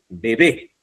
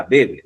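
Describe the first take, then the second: First: Bebé with the stress on the second BÉ; stress on final syllable. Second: Bebe stressed on the first BE; stress on first syllable. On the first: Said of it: "si no le pone la tilde". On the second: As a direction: let the end of bebe drop, hit BE first. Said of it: "si no le pone la tilde, diría". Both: Shown as a demonstration.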